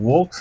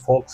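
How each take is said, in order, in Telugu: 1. ఈ పదం v శబ్దంతో మొదలవుతుంది. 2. ఈ పదం f శబ్దంతో మొదలవుతుంది. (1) "వోక్స్ అనట్లేదు" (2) "ఫోక్స్ అంటాం"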